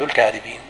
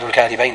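First: The word ends with an 'een' sound. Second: The word ends with an 'ayn' sound. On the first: It refers to many liars. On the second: It refers to two liars.

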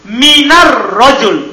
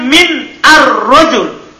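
First: The words run together with no glottal stop. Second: A glottal stop separates the two words. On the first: The hamzah is dropped to make it lighter. "Kita tidak baca hamzanya" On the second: The hamzah is kept in full. "Seharusnya kan min ar rojul"

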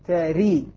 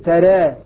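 First: The vowel after r is a full i. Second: The vowel after r is between a and e. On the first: "كسر" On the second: "تقليل"

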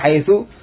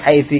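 First: The word ends with an u vowel. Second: The word ends with an i vowel. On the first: "kadang di dhamma haitsu" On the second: "kadang dengan kasrah haitsi"

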